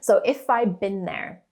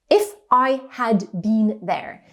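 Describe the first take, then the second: First: The word 'had' is reduced and barely heard. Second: The word 'had' is said fully and clearly.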